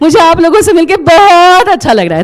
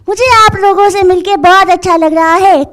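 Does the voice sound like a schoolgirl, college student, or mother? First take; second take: mother; schoolgirl. First: It is said in a mother's voice. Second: It is said in a young schoolgirl's voice.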